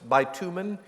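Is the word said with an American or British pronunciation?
American. It is said with an American pronunciation. "In American English"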